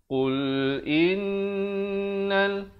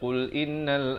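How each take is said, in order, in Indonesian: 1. Bunyi sengau n ditahan selama dua ketukan. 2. Bunyi sengau n dipotong pendek. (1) "dengungkan di sini wajibul gunnah dua harakat" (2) "Kerana tak dipanjangkan"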